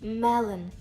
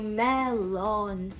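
First: The second vowel is a weak neutral schwa. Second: The second vowel is a full o sound. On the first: The speaker calls it right. "Ми кажемо мелен" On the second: The speaker calls it wrong. "І ми не кажемо мелон"

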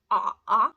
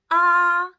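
First: The pitch is very low. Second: The pitch stays high and level. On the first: "Третій тон. як жаба квакає дуже низько" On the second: "Перший тон в нас А"

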